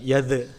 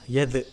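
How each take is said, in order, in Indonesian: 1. Konsonan akhir dipantulkan lalu dilepas. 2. Konsonan akhir dipantulkan lalu dilepas.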